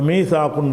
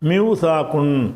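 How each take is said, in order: First: The first syllable is a long 'mee' sound. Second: The first syllable is 'miw' with a w sound. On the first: The speaker calls it right. "சட்டப்படி ஏயா மாற்றிடணும்" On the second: The speaker calls it wrong. "மிவ் சாக்குன் அப்படி சொல்ல முடியாது"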